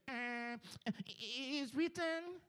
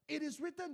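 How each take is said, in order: First: It is said timidly and hesitantly. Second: It is said forcefully and boldly.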